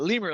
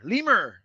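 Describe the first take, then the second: First: The word is given a plain English pronunciation. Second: The word is given a French-sounding pronunciation. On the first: The speaker calls it right. "It's just a lemur, like a lemur, like the animal" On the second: The speaker calls it wrong. "I keep saying Lemur like it's like French or something"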